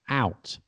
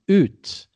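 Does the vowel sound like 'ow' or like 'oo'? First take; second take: ow; oo. First: The vowel is an 'ow' sound. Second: The vowel is a long 'oo' sound. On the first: This is the modern pronunciation. "we say out" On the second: This is the older pronunciation. "used to be oot"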